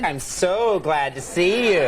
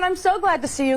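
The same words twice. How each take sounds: First: Slow, sarcastic, laughing; mock glad to see you. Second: High, sweetly gushing; gushing greeting, higher; overly friendly greeting. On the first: Shown as a demonstration. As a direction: say it dripping with sarcasm. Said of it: "think you're being sarcastic". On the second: Retold or imitated. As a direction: greet the cop like an old friend. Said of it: "So I said".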